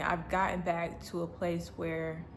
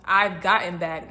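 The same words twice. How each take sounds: First: Said in the usual way. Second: I've gotten back said louder, gotten punched; emphatic correction; corrected emphasis. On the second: Real, not acted. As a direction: stress gotten as the fix. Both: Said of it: "not I'm getting".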